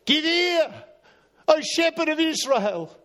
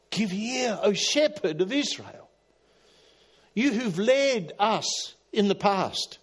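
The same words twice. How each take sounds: First: High, louder plea to God; psalm cry. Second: Higher, slow prayerful plea; psalm plea. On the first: Asaph crying out to the shepherd of Israel, high louder plea. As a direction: call out the psalm like a prayer. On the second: Preacher repeats the psalm to God, high slow plea. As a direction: lift the psalm up slowly. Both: Retold or imitated.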